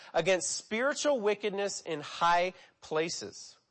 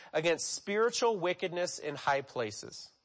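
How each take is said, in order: No difference in how they are said.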